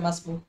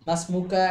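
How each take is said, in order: First: The word ends without its final vowel. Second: The word ends with a final vowel. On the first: This is how it is said in everyday speech. "মাসমুকা এর জায়গায় মাসমুক" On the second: This is the original full form. "মাসমুকা এর জায়গায় মাসমুক"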